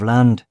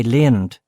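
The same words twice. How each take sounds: First: Said in the usual way. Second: "leand" with a broad open vowel; "leand" drawn wide in place of land; posh pronunciation. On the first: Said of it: "instead of". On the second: Shown as a demonstration. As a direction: say "leand" like an old Anglo-Irish toff. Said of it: "where they learned to say".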